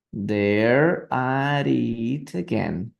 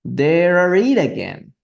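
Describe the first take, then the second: First: Very slow, drawn out; slow repeat. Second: A touch higher and louder, slow; read as a shout. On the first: Shown as a demonstration. Teacher slowly repeating the shouted line for students. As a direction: stretch the words for learners. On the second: Acted. Teacher reading the messenger's shout to the class. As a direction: call it out like the messenger. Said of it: "he simply shouted at the top of his voice".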